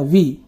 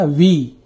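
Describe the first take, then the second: First: The vowel is short and quick. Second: The vowel is long and drawn out. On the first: "व में छोटी की मात्रा का उच्चारण करते हैं तो ये हो जाएगा वी" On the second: "व में बड़ी की मात्रा का उपयोग करते हैं तो ये हो जाएगा वी"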